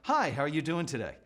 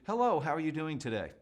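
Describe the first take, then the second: First: It sounds really interested, with eyebrows raised. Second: It sounds pleasant but plain, eyebrows not raised.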